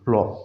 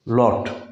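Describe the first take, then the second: First: American style, the final T is dropped. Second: The final T sound is clearly pronounced.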